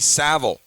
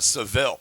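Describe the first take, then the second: First: The name is said rhyming with travel. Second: The name is said not rhyming with travel. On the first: The speaker calls it right. "If it rhymes with travel, that's how I'd imagine you'd say it" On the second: The speaker calls it wrong. "not uh, Seville"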